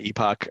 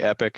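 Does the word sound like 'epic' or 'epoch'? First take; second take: epoch; epic. First: The word is said as 'epoch'. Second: The word is said as 'epic'. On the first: The speaker calls it right. "is the way you pronounce my company name" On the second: The speaker calls it wrong. "Some people say Epic"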